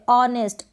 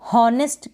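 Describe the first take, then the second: First: The word starts with a vowel, no h. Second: The word starts with an h sound. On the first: The speaker calls it right. "एच silent है" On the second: The speaker calls it wrong. "बिल्कुल ना पढ़ें, गलत हो जाएगा"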